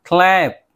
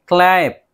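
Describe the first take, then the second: Both takes have the same delivery.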